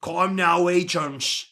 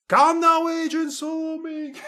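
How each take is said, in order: First: Said in the usual way. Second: Much higher, breaking into a laugh; squeaky high redo. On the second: Acted. May I calls the agents again, now squeaky high and laughing.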